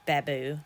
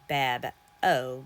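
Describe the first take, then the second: First: The last vowel is an "oo" sound. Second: The last vowel is an "oh" sound. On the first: "when I look at it, I think of bamboo" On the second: "because it's a O"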